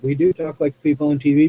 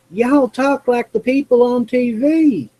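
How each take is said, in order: First: Said in the usual way. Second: Put-on high-pitched Southern lady accent. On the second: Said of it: "as a Southern lady when I was in high school said".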